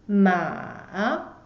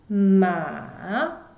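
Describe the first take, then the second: Both takes have the same delivery.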